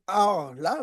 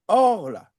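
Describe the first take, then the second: First: A vowel is sounded after the middle consonant. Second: No vowel is sounded after the middle consonant. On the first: The speaker calls it wrong. "on ne va pas dire Or là" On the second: The speaker calls it right. "il y a le Sheva, ... mais on va dire Or là"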